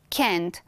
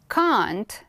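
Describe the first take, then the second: First: It is said with an American accent. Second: It is said with a British accent. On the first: "is the American English" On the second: "it's the British one"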